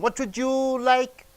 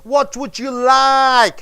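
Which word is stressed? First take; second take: you; like. First: The stress falls on the word you. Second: The stress falls on the word like. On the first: One particular person is singled out from a group. "I'm asking you. One particular person" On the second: It is a simple request for information from everyone. "You're stressing on the word, last word, like"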